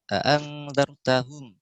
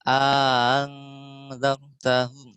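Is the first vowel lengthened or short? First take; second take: short; lengthened. First: The first vowel is short, not drawn out. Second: The first vowel is drawn out and slightly raised. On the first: This follows one reciter's tradition. "Itu kan hafaz" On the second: This follows another reciter's tradition. "kita panjangin dua harokat"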